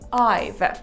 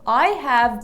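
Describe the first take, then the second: First: The two words are shortened into one syllable. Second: Both words are said in full, unreduced.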